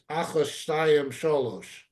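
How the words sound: It uses Ashkenazic Hebrew vowels and endings. The poem's meter can be heard. The speaker calls it right.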